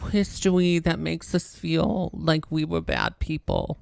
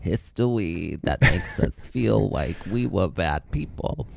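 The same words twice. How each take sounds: First: It is said in a childish baby voice. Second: It is said in a normal adult voice.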